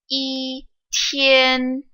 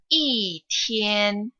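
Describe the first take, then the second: First: Yi has a high, level pitch. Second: Yi has a falling pitch. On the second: "e will change into the fourth tone"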